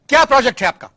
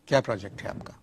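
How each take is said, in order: First: It is said in a sharp, scolding tone. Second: It is said in a lowered, softer tone.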